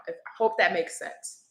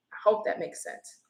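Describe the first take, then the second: First: Said in the usual way. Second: Breathy whisper, softer; whispered aside. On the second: Real, not acted. Reader murmurs the check again to herself, whispered. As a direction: repeat it to yourself under your breath. Repeats line under her breath.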